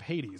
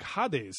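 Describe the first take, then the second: First: The name is said with an English accent. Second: The name is said with a Greek accent.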